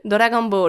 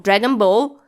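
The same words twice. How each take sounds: First: It is said with a Japanese accent. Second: It is said with an English accent. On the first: Listeners understand it. The speaker calls it right. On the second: Listeners might not understand it. The speaker calls it wrong.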